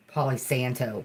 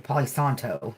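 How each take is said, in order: First: A lightly done country-accent "Palo Santo". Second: Said in the usual way. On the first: Shown as a demonstration. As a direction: say "Palo Santo" like a rural Southerner. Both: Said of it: "I said it like a hillbilly".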